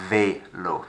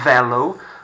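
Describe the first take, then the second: First: The first vowel is close to an 'ay' sound. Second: The first vowel is a plain 'e' sound. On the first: The speaker calls it right. "Makes it a bit of an A sound" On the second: The speaker calls it wrong. "Not velo"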